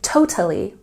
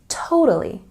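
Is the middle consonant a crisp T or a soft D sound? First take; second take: crisp T; soft D. First: The middle consonant is a crisp T sound. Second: The middle consonant is a soft D-like sound. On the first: The speaker calls it wrong. "I'm not saying totally" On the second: The speaker calls it right. "The middle T sound in this word is softer. It's a bit more like a D sound"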